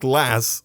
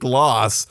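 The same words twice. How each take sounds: First: It is said with a northern English accent. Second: It is said with a southern, posh accent.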